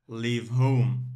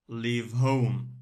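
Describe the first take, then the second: The two takes are said the same way.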